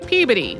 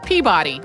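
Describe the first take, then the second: First: The name is said the Northeastern regional way. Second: The name is said just as it is spelled. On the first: "In the Northeast, people mostly say Peabody, like I just said it" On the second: "it's Peabody, like it's spelled"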